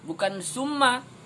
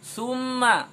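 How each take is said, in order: First: The first consonant is a plain s sound. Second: The first consonant is a th sound. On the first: The speaker calls it wrong. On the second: The speaker calls it right. "lidahnya di atas"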